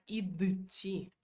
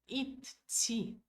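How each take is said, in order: First: A d sound comes before the t. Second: The t sound is held long and doubled. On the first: The speaker calls it wrong. "nós nunca vamos falar id, ti. Fica muito puxado para a garganta" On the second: The speaker calls it right. "também pode usar dois T, que é- fica mais assim, ah, bonito"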